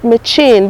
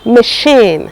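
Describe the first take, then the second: First: The middle consonant sounds like ch in chair. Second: The middle consonant sounds like sh in sheep. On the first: Some people say it this way. "some people call it machine" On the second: This is how it is said locally. "It is pronounced machine"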